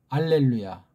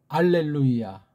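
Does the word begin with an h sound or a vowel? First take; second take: vowel; vowel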